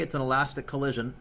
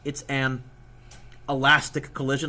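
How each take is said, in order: First: The words run together without a pause. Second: A long pause comes before 'elastic'. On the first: It could be heard as 'inelastic'. The speaker calls it wrong. "that sounds like I said inelastic" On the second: It is clearly heard as 'elastic'. The speaker calls it right. "I'll put a big pause there"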